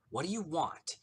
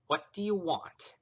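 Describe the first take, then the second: First: Tight words through clenched teeth; gritted teeth. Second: Words forced through gritted teeth. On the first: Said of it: "she asked through gritted teeth". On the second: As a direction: speak through clenched teeth. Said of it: "through her gritted teeth". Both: Acted.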